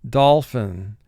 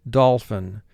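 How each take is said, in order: No difference in how they are said.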